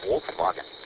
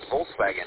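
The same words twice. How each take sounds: First: It is said with a German pronunciation. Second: It is said with an English pronunciation. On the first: The speaker calls it right. "in German, ... it's Volkswagen" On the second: The speaker calls it wrong. "it's not Volkswagen"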